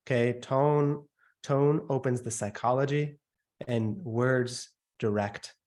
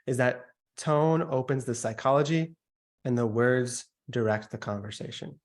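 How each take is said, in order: First: Tone and words said slowly, weight on "tone" and "words"; slow it down and lean on "tone"; slow emphatic demo. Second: Said in the usual way. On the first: Shown as a demonstration. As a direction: spell out "tone opens the psychology" with deliberate weight. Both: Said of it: "Another example of tonality".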